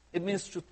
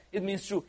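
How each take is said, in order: Both takes have the same delivery.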